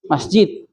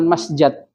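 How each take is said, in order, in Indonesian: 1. Suku kata kedua memiliki vokal i. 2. Suku kata kedua memiliki vokal a. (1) "kita temukan dari Al-Quran ataupun dari hadis mengucapkan"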